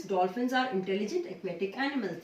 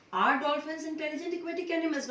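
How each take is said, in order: First: Said in the usual way. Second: Raised pitch, quick questioning read; asking a question. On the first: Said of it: "Here it is a normal sentence". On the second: Shown as a demonstration. Teacher shows the class the question form, pitched up and quick. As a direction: ask it like a real question, voice up high. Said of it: "So that becomes a question".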